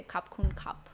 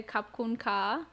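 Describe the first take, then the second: First: "Kap kun kap" with short final "kap"; male Thai form. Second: "Kap kun ka" with long, rising "ka"; female Thai form. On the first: Teaching a man his Thai thanks, short "kap". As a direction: close the last "kap" on a p. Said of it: "So you would say". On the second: Woman shows her own Thai thanks, "ka" drawn out. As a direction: stretch the final "ka" open, no p. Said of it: "So for when I say". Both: Shown as a demonstration.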